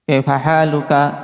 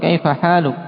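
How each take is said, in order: First: The last word ends with a short vowel. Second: The last word ends on a bare consonant. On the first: The speaker calls it wrong. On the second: The speaker calls it right. "mereka berhenti pada sukun"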